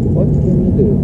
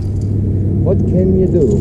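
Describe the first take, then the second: First: Said in the usual way. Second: Drawn out slowly, rising then falling; slow rhetorical what can you do; slow musing. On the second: Real, not acted. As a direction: stretch each word like a shrug. Musing aloud on the water.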